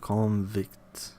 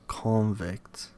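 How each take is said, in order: First: The stress is on the second syllable. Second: The stress is on the first syllable. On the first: It is used as a verb. "but on the second syllable of the corresponding verb" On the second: It is used as a noun. "Stress goes on the first syllable of the noun"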